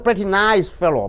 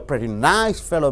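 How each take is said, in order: First: The word pretty carries the stress. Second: The word nice carries the stress. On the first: He is a good person. "Pretty means he's a good boy" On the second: He is only an average person. "When you unstress the pretty"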